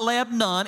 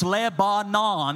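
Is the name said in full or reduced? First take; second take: reduced; full. First: The name is said with reduced syllables. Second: The name is said in full, every syllable. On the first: This is how the local people say it. The speaker calls it wrong. "it is not Lebanon" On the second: This matches the spelling of the name. The speaker calls it right. "is exactly how it's spelled"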